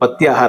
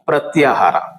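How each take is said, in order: First: The first syllable is said without an r. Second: The first syllable is said with an r. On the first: The speaker calls it wrong. "ಇದು ಪತ್ಯಾಹಾರ ಅಲ್ಲ" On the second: The speaker calls it right.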